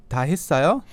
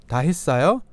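No difference in how they are said.

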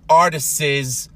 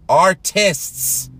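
First: The word is said with more than two syllables. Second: The word is said with two syllables. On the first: The speaker calls it wrong. "not artists" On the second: The speaker calls it right. "two syllables"

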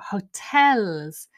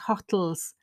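First: The stress is on the second syllable. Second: The stress is on the first syllable. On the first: The speaker calls it right. "it is an unusual word stress on the second stress" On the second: The speaker calls it wrong. "I didn't know what he was talking about"

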